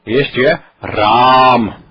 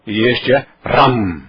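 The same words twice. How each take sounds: First: "Ram" with a nasal final, slow and stretched; nasal Ram, drawn out; nasalized Ram. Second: "Ram" with an open, non-nasal a; plain Ram. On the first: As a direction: let "Ram" close through the nose. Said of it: "Este está nasalizado". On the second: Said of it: "Este não está". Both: Shown as a demonstration.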